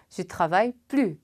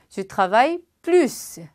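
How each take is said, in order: First: The final s of plus is silent. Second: The final s of plus is pronounced. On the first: I don't work anymore. The speaker calls it wrong. "S 발음 안 하니까" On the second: I work more. The speaker calls it right. "나는 일을 더 많이 해요 라고 하는 경우 Je travaille plus 라고 쓸 텐데"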